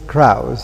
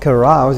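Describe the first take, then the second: First: No vowel is heard after the c. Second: A short vowel is heard after the c.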